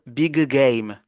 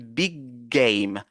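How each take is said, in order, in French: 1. Les deux sons g sont prononcés séparément. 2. Les sons g se fondent en un seul g long. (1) "on ne va pas dire big game" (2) "On va dire big game. ... on prolonge un peu le G"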